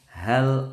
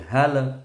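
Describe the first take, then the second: First: The final 'l' stops cleanly without echo. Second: The final 'l' bounces with an echo. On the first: The speaker calls it right. "cukup hal ataka" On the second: The speaker calls it wrong. "nggak boleh mantul lamnya, nggak boleh hal"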